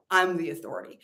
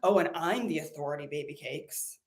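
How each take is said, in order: First: Said in the usual way. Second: Lightly voiced sassy guru purring baby cakes; a hint of a smug spiritual guru; teasing impression of herself as a guru; mock sassy guru.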